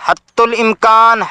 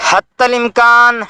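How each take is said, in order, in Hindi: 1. 'hatt' के बाद का स्वर 'u' है। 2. 'hatt' के बाद का स्वर 'a' है। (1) "ता की पेश के साथ ... जो गलत है" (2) "ता के ज़बर के साथ"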